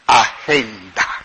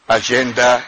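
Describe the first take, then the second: First: The word is pronounced with Spanish sounds. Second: The word is pronounced with English sounds.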